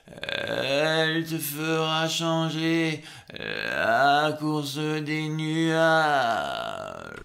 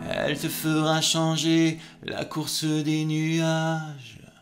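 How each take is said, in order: First: The phrase is said slowly and dragged out. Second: The phrase is said quickly and lightly. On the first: The speaker calls it wrong. "c'est pas de, de faire" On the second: The speaker calls it right. "vous allez faire ça de plus en plus vite"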